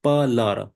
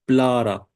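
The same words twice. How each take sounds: First: Palara with a vowel between p and l; cluster broken. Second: Plara with p and l run together; no vowel between p and l in "plara"; cluster kept. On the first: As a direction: split "palara" as pa-lara. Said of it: "break the cluster, we can say". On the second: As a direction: start "plara" on a joined pl. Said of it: "use this cluster, we pronounce". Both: Shown as a demonstration.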